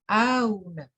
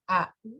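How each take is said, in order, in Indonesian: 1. Hamzah kedua dilunakkan, antara hamzah dan w. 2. Hamzah kedua adalah hamzah penuh. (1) "Kalau tasil auna" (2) "au tahqiq"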